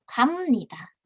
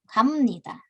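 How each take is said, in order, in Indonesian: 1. Konsonan akhirnya adalah bunyi m. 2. Konsonan akhirnya adalah bunyi m.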